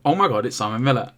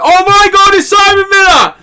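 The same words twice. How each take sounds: First: It is said quietly, as inner thought. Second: It is said loudly, as an outburst.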